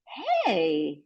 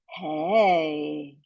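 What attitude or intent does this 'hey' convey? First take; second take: surprised; confirming. First: It sounds surprised. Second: It sounds like confirming information. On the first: The speaker did not expect this. "Hey, showing surprise" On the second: The speaker is checking that something is true. "Hey, confirming information"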